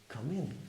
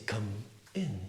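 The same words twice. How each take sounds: First: The m links straight into the next word. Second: The two words are said separately. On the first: The speaker calls it right. "you say come in. ... The M of come moves forward to make a new word with in" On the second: The speaker calls it wrong. "you don't say come in"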